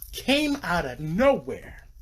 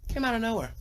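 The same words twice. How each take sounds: First: "came out of nowhere" slow and stretched, pitched up; "came" and "nowhere" leaning hard, slowly; drawn-out emphasis. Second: Much higher, quicker delivery; high, falling exclamation of surprise; high-pitched repeat. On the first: Dramatic gushing about Snatch. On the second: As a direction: squeak it out high, without pushing volume. Repeats dramatic line after digression. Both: Real, not acted.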